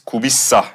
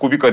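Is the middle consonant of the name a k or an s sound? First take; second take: s; k. First: The middle consonant is an s sound. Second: The middle consonant is a k sound. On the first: The speaker calls it right. "Kubissa gibi böyle bir söyleyişi var" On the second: The speaker calls it wrong. "Ben Kubika diye başladım"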